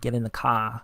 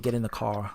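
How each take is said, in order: First: Spoken in a Boston accent with no R sound. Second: Spoken in a New York accent with a W-like glide. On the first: "they say car with an H" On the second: "We say get in the car. We actually add a W"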